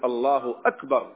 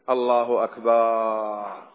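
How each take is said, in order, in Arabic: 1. تُقال بحزم وجزم. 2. تُقال بأسى وتحسّر. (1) "فليجزم" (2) "كما يقول الذي يأسف على شيء فات"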